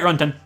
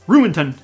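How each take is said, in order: First: The name is said quickly, squeezed into two short syllables. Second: The name is said fully, like 'ruined ton'. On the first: "saying it quick, saying it fast" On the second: "Like, ruined ton"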